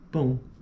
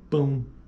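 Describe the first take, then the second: Both takes have the same delivery.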